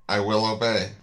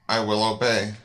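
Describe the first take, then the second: Both takes have the same delivery.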